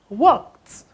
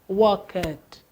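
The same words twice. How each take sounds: First: The ending is a plain t with no vowel. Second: The ending is an extra syllable with a vowel. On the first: The speaker calls it right. "No, it's walked" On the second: The speaker calls it wrong. "this ed here is not e. I hope you know it's not walked"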